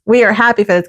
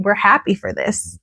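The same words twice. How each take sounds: First: "are" given full weight, uncontracted; stress on ARE. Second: Said in the usual way. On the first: Real, not acted. Recapper reassuring listener they approve, stressing "are". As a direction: lean on "are" to insist. Sentence restated with emphatic full verb.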